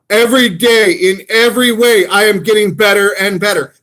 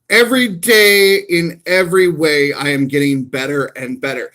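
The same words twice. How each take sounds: First: It is said with more energy and emotion. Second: It is said with the least energy and emotion. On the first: "I increased my vocal intonation with each one of these" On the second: "I increased my vocal intonation with each one of these"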